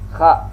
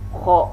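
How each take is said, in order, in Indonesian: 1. Kha diucapkan dengan bibir tidak membulat. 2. Kha diucapkan dengan bibir membulat. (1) "Lidah bibir kita tidak ikut membulat ya" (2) "Jangan seperti ini"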